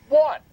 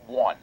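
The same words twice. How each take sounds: First: "One." punched high and loud; emphatic repeat. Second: Said in the usual way. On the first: Real, not acted. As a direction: hit "One." hard and high.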